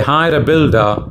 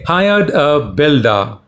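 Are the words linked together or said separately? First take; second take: linked; separately. First: The words are linked smoothly together. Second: The words are said separately without linking. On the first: The speaker calls it right. "that is natural and fluent" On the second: The speaker calls it wrong. "that sounds sick"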